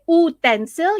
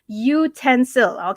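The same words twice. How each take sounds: First: The word begins with a plain vowel sound. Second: The word begins with a 'you' sound. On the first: The speaker calls it wrong. "You don't say utensil" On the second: The speaker calls it right. "you say utensil"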